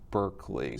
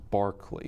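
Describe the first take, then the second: First: The name begins with a 'burr' sound. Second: The name begins with a 'bar' sound. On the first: This is how the spelling reads at face value. The speaker calls it wrong. "I read Berkeley" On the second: This is the English way to say the name. The speaker calls it right. "so it's pronounced Barclay"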